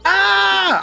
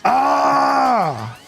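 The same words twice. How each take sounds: First: The exclamation is high-pitched and loud. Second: The exclamation is in a lower pitch. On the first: The speaker calls it wrong. "instead of being ah" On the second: The speaker calls it right. "I need to be ah"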